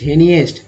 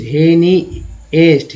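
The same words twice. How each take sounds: First: Said in the usual way. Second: "हेनीएस्ट" said slowly, each syllable separate; teacher breaking "हेनीएस्ट" into slow syllables. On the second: Shown as a demonstration. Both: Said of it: "हेनिस्ट".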